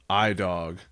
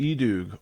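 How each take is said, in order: First: The name is said with an American-style pronunciation. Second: The name is said with a Swedish-style pronunciation. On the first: The speaker calls it wrong. "as the Americans love to say" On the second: The speaker calls it right. "I think is E-Doog is the correct way"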